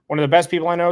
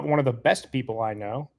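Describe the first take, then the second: First: Higher and louder, repeated with real enthusiasm; bright emphatic repeat of the compliment; emphatic praise. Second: Said in the usual way. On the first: Real, not acted. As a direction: say it again, lifting it up with eager praise.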